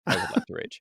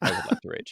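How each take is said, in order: First: It is said in Grog's character voice. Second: The same.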